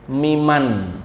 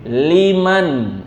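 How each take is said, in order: First: The word begins with an m sound. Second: The word begins with an l sound. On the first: The speaker calls it wrong. "saya sering dengar sami'allahu miman" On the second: The speaker calls it right. "Tapi yang betul apa? Liman"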